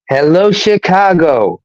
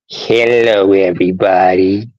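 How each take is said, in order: First: It is said in his normal voice. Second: It is said in an imitation of Droopy.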